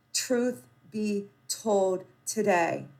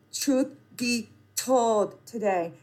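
The two takes are said the same way.

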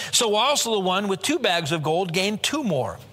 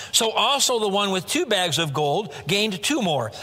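Both takes have the same delivery.

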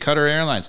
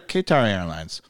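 First: Qatar is said with the native pronunciation. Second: Qatar is said with the American pronunciation. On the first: This is the older way the airline said it. "Their commercials used to be Qatar Airlines" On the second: The airline changed it to suit Americans. "Now they're Qatar Airlines"

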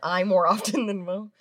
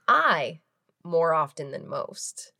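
First: The phrase has only a short pause in it. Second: The phrase has a long pause in it. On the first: The speaker calls it wrong. "You didn't have a long enough pause in there" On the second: The speaker calls it right. "there it is"

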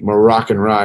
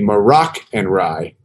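First: It is said quickly, running together. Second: It is said slowly and clearly.

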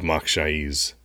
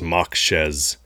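First: The second syllable has an 'eye' vowel. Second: The second syllable has an 'eh' vowel. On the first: The speaker calls it right. "instead of Mokshaiz" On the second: The speaker calls it wrong. "He says Mokshez"

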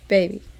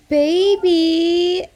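First: It is said plainly and casually. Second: It is said in a cringy, syrupy way.

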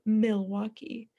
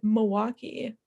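First: It is pronounced the way outsiders say it. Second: It is pronounced the way locals say it. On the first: The speaker is not from the city. The speaker calls it wrong. "people not from Milwaukee say" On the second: The speaker is from the city. The speaker calls it right. "Milwaukeeans say"

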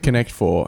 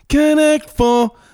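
First: It is said flatly and reluctantly. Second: It is said enthusiastically, like an advert.

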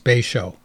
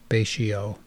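First: The name ends with a 'show' sound. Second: The name ends with a 'shee-oh' sound. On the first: The speaker calls it right. "but it's Bay Show" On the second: The speaker calls it wrong. "I've been pronouncing it Bay-shio"

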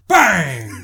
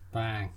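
First: It is said loudly, with great force. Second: It is said fairly softly, with little force.

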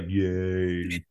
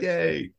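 First: It sounds flat and sarcastic. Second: It sounds warm and sincere.

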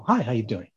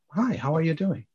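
First: The greeting sounds hollow and insincere. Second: The greeting sounds warm and sincere.

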